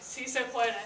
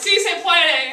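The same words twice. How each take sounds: First: It is said louder than normal speech. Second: It is yelled at full volume.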